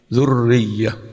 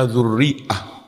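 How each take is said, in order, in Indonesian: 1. Bunyi y ganda menggantikan hamzah. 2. Ada hamzah sebelum suku kata terakhir. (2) "Harusnya dzurri'ah ya"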